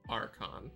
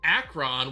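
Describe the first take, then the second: First: The first syllable sounds like 'ar'. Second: The first syllable sounds like 'ack'. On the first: The speaker calls it right. "Archon, not Akron" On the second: The speaker calls it wrong. "Did I say that right? Archon, not Akron"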